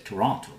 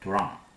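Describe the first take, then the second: First: The final T sound is clearly pronounced. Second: The final T sound is dropped. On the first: This is the formal way to say it. "the formal way" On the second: This is how local people say it. "They do not pronounce this last T"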